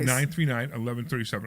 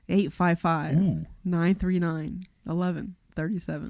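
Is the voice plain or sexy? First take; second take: plain; sexy. First: It is said in a plain voice. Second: It is said in a sexy voice.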